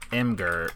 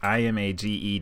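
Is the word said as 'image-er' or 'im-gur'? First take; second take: im-gur; image-er. First: It sounds like im followed by gur. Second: It sounds like the word image plus -er. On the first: "like E-M-G-U-R" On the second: "So like imager"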